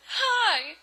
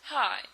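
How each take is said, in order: First: High, loud, chirpy hello; hammed-up cheerful hail; perky greeting. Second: Subdued little hello; understated sad greeting; downcast reply. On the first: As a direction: greet with overdone eagerness. Eager greeting, contrasted with sad reply. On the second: Acted. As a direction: answer glumly, without any lift. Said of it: "his face was all sad".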